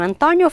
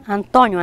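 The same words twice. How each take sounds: First: Antônio with an open stressed ó; open vowel. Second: Antônio with a closed stressed ô; closed vowel. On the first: Teacher listing both forms, Antônio with open ó. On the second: Teacher listing both forms, Antônio with closed ô. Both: Shown as a demonstration. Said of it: "com o som mais aberto".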